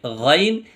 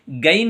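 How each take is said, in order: First: गैन said with a thick, heavy throat sound; heavy ghain. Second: गैन said as a thin, light g sound; light gain, wrong. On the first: Teacher showing students the heavy गैन. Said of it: "मोटी आवाज़ में पढ़ा जाएगा". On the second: Teacher showing students the wrong गैन. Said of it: "गैन नहीं बोलना". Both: Shown as a demonstration.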